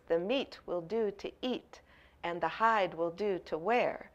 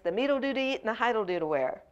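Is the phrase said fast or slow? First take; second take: slow; fast. First: It is said slowly with full words. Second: It is said fast with contracted words.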